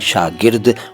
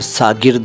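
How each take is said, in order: First: The word begins with an sh sound. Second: The word begins with a plain s sound. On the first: The speaker calls it right. "सही उच्चारण है शागिर्द" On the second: The speaker calls it wrong. "इसको कई लोग सागिर्द और सागिरद कहते हैं, दोनों गलत हैं"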